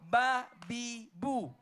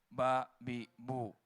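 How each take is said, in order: First: It is said firmly, with energy. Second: It is said limply, without energy.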